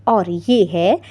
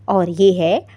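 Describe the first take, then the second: The two takes are said the same way.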